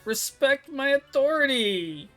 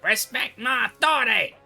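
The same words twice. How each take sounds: First: It is said weakly, without power. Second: It is said forcefully, like Cartman.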